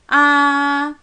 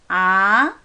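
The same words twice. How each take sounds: First: The pitch stays high and level. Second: The pitch rises smoothly from the middle. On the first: "일성" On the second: "좀 중간쯤에서 위로 부드럽게 올라갈 거예요"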